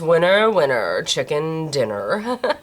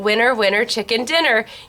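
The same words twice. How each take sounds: First: It is said in an Evil Queen voice. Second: It is said in her natural voice.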